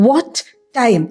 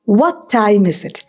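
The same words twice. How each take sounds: First: "What time" with the t of "What" and the t of "time" both fully spoken; both t sounds said. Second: "What time is it" with the t of "What" dropped into a short pause; silent first t. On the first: Teacher showing learners the hard way to say "What time", with both t sounds. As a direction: sound out each t in "What time" separately, the clumsy way. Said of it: "ആ what-ൻ്റെ അവസാനം ഒരു ട്ട് ഉണ്ട്, time-ൻ്റെ ആദ്യം ഒരു ട്ട് ഉണ്ട്".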